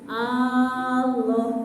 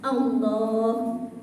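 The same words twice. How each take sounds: First: The first A vowel is lengthened. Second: The L sound in the middle is lengthened. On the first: It comes to mean a stone idol. The speaker calls it wrong. "dipanjangkannya huruf A-nya" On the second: It names God. The speaker calls it right. "yang panjang lam jalalah"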